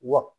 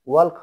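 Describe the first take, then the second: First: No L sound is pronounced before the K. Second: An L sound is pronounced before the K. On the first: The speaker calls it right. "সেটা হয় ওয়াক" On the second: The speaker calls it wrong. "ওয়াল্ক হয় না কখনো"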